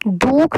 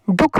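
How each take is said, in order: First: दुख stretched to "dookh"; long vowel. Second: दुख with a quick short u; short vowel. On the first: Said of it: "हम दुख तो नहीं बोल रहे". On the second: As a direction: keep the u brief in दुख. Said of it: "थोड़ी आवाज़ दे रहा था". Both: Shown as a demonstration.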